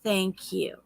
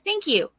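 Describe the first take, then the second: First: It is said slowly, drawn out. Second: It is said in a raised, louder voice.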